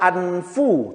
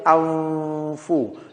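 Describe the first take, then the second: First: The n is pronounced fully and clearly. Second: The n is hidden, nasalized into the f. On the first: The speaker calls it wrong. "tidak dibaca anfu" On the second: The speaker calls it right. "tetapi anfu"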